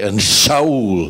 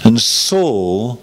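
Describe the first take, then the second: First: The name begins with an 'sh' sound. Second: The name begins with an 's' sound. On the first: This is the original Hebrew form of the name. The speaker calls it wrong. "that may be true technically, but it doesn't help people" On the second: This is the usual English form of the name. The speaker calls it right. "Don't say Shaul"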